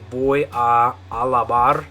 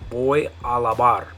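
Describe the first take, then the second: First: It is said slowly, with both a vowels separate. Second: It is said at normal speed, the vowels merged.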